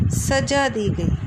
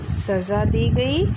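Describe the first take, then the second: First: सजा said saja with hard j, slow; j sound. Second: सज़ा said saza with z, slow; z sound. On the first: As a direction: slowly say सजा with j as in jam. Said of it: "पहला शब्द ठीक है". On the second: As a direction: slowly buzz the z in सज़ा. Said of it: "चोर को सज़ा दी गई". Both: Shown as a demonstration.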